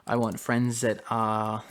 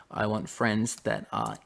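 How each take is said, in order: Both takes have the same delivery.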